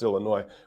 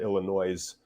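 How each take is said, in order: First: The final S is silent. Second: The final S is pronounced. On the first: The speaker calls it right. "it's pronounced Illinois. They don't say the S" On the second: The speaker calls it wrong. "to pronounce it Illinois, which is just hilarious"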